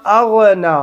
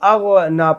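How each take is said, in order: Both takes have the same delivery.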